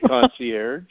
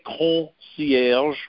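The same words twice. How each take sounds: First: The R is a plain English-style R. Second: The R is a French-style throaty R. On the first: "but you could say concierge" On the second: "you don't have to have the French R like I do"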